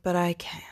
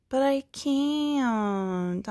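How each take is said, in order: First: Said in the usual way. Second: High, drawn-out self-pitying whine; mock whining. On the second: Protesting the need to change life, mock whining. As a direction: stretch it out in a high, hammed-up whine.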